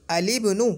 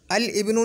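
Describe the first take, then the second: First: अलिब्नु with the लाम given an इ and joined to ब; linked correct reading. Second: अल इब्नु with a break and the hamza of इब्नु sounded; wrong separate reading. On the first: Teacher to students, showing the right joined reading. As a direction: blend अल into इब्नु as one word. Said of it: "अल इब्नु नहीं बोलेंगे". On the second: Teacher warning students against the separate reading. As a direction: say अल and इब्नु apart. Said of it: "नहीं बोलेंगे". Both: Shown as a demonstration.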